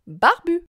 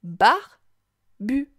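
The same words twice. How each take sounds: First: Said in the usual way. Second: "Barbu" split into "bar", pause, "bu"; syllable by syllable. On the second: Shown as a demonstration. Teacher helps child hear bu, "Barbu" broken apart. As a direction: sound out "Barbu" slowly in two separate beats. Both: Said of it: "Tu entends bien la syllabe bu".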